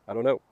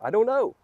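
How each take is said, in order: First: Said in the usual way. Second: I don't know jumps way up high, bewildered; high baffled shrug. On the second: Retold or imitated. Crying for no reason, he squeaks out a high, baffled I don't know. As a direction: toss it up high like a helpless shrug. Asking himself why he cries.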